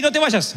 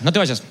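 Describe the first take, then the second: First: High urgent no te vayas, stress on no; light mock plea, raised pitch; calling after. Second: Said in the usual way. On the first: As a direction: plead him to stay, lifted voice. Lord calls the young man back.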